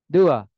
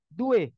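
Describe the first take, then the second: First: The word ends in an open a vowel. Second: The word ends in an e vowel. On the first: This is the standard Indonesian form. "Indonesia dua" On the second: This is how Betawi speakers say it. "Kalau orang Betawi"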